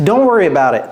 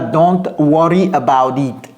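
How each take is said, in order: First: The words are linked smoothly together. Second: Each word is pronounced separately and fully. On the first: The speaker calls it right. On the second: The speaker calls it wrong. "Ce n'est pas"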